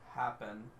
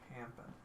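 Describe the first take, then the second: First: The word sounds like plain 'happen'. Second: The word sounds like 'Hampton'. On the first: "when I say uh" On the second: "I normally say it Hampton"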